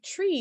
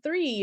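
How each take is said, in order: First: The word starts with a plain t sound. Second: The word starts with a th sound. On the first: "it's like tree instead of three" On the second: "instead of three"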